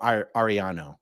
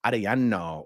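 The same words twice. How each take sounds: First: Ariano with plain American r; Americanized Latin name, Ariano as "ar-ee-AH-no"; American accent. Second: Arellano with tapped r, long Spanish "ah" vowels; Spanish accent. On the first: Streamer trying a Latin name, American accent. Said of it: "just with an American accent". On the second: Streamer showing how a Latin name could sound, Spanish accent. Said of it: "a Latin name just with an American accent". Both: Shown as a demonstration.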